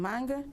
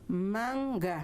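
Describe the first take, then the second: First: The word is said quickly as one unit. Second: The word is said slowly, syllables separated. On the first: The speaker calls it wrong. "em vez de" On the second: The speaker calls it right. "pronunciar pausadamente"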